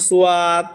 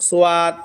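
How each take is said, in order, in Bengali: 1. এটা দুই দাঁড়িতে বলা হয়, su-yad। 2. এটা দুই দাঁড়িতে বলা হয়, su-yad।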